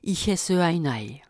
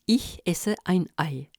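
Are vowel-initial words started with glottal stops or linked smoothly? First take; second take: linked smoothly; glottal stops. First: The vowel-initial words run together without glottal stops. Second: Each vowel-initial word starts with a glottal stop. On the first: "sans coup de glotte" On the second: "il introduit tout mot commençant par une voyelle"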